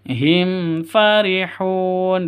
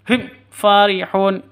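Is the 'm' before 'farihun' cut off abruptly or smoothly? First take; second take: smoothly; abruptly. First: The 'm' flows smoothly into the next word. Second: The 'm' is cut off with an abrupt jerk. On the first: The speaker calls it right. "Yang yang betul" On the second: The speaker calls it wrong. "itu salah ... Disentak itu tidak boleh"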